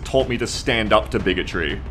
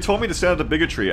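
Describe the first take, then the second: First: The phrase is said slowly and clearly. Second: The phrase is said fast and run together. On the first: The speaker calls it right. "just to enunciate properly" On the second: The speaker calls it wrong. "I talk too fast there"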